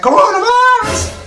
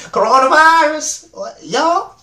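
First: Squeaky, much higher, louder Coronavirus shout; [name] impression. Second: [name] impression retake. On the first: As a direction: squeal it the way [name] yelled it, voice cracking up high. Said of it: "Like [name] said". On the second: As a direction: redo the [name] yell, still high but steadier. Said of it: "let me do it again".

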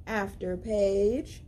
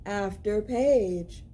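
No difference in how they are said.

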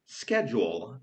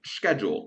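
First: Schedule said the British way with a sh sound, slower; British accent. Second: Schedule said the American way with a sk sound; American accent. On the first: Teacher contrasting US and UK schedule, British. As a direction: say schedule like a Brit, with sh, slowly. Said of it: "a w U K mówi się". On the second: Teacher contrasting US and UK schedule, American. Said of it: "w U S A to się mówi". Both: Shown as a demonstration.

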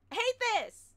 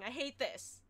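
First: Higher, louder frustrated wail; pitched up and louder, fed up. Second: Said in the usual way. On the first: Real, not acted. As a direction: let the frustration boil over.

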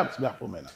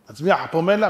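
First: Very soft, low falling "פומלה"; hushed matter-of-fact confirmation; low answer. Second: "פומלה" rising as a question. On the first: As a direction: answer under your breath, dropping on "פומלה". Answers own question. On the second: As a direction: ask it, lifting the end of "פומלה". Question, then murmured answer. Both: Acted.

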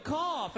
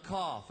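First: High, emphatic order to cough; insistent command. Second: Said in the usual way. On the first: Retold or imitated. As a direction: order it again forcefully, pitch raised. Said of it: "And he said, "No, boy". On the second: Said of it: "he goes, "All right, son".

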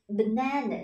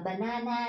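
First: Banana with weak short "ơ" around a stressed "na"; correct English pronunciation. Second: Banana with three full, even "a" vowels; wrong Vietnamese-style pronunciation. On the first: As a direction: say banana English-style, falling off to a short schwa. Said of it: "chúng ta sẽ đọc là banana". (banana đọc chuẩn Anh, âm "ơ" ngắn) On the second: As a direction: say banana Vietnamese-style, each syllable drawn out as "a". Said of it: "không đọc là banana nhá". (banana đọc kiểu Việt, ba âm "a" rõ) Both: Shown as a demonstration.

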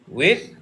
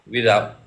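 First: Rising question. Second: Falling question. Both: Shown as a demonstration. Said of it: "with or without?".

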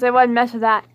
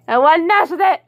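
First: Said in the usual way. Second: Higher, louder repeat with weight on mess; louder warning. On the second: Real, not acted. Owner warning fish Bonnie away from Picossamus, louder repeat. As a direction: warn her again, louder this time.

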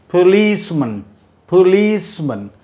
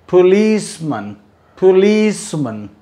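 No difference in how they are said.

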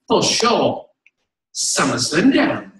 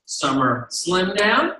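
First: Lightly imitated British assistant; British accent. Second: Said in the usual way. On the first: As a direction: answer slowly with a mock British accent. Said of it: "She's British".

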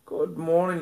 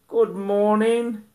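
First: Said in the usual way. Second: High, slow sing-song good morning; puppy greeting. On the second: Real, not acted. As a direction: stretch it out for the dog. Greeting dog, repeated.

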